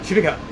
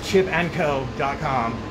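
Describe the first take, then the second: First: The name is rushed and its syllables blur together. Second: The name is said clearly at a careful pace.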